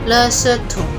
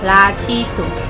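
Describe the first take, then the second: First: The first syllables sound like 'le-se'. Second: The first syllables sound like 'la-ci'. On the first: This is how it is said in Taiwan. "untuk Mandarinya orang Taiwan itu lesetum" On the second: This is how it is said in Singapore. "Kalau di Singapura lacitum"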